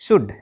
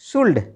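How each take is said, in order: First: The L sound is silent. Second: The L sound is pronounced. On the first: The speaker calls it right. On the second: The speaker calls it wrong.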